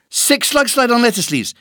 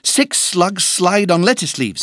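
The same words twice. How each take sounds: First: It is said at a very fast pace. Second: It is said at a faster pace.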